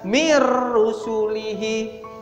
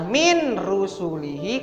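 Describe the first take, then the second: First: The n sound merges fully into the r. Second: The n sound is pronounced before the r. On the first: "dibaca mir rusulihi" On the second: "yang awalnya min rusulihi"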